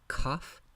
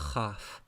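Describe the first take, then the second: First: The first consonant fully stops the airflow. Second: The first consonant lets the airflow continue. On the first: "you pronounce it with a stop of air" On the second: "the airflow continues, so it becomes the spiranted form"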